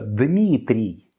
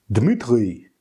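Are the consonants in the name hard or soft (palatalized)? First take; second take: soft; hard. First: The consonants are soft, with palatalization. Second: The consonants are hard, without palatalization. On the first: This is the native pronunciation. The speaker calls it right. "вместо" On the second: This is how a foreign speaker says it. The speaker calls it wrong. "не могут его правильно произнести из-за отсутствия явления палатизации"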